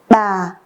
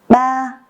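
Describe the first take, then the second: First: The pitch starts low and falls slowly. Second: The pitch stays high and level.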